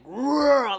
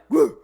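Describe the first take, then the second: First: A low, rumbling, growling sound. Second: A short, sharp, barking sound. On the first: The scent combination feels fierce like a lion. "gave me a growl, like a lion" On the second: The scent feels bolder than a simple purr. "like a bark"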